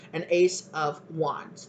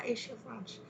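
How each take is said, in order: First: Said in the usual way. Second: "Ace of Wands" slurred softly, S sounds turned to SH; slushy mispronunciation. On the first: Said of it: "I don't know why I just". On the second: Shown as a demonstration. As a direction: say "Ace of Wands" as roughly "Aysh of Wansh", quietly. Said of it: "saying it like that".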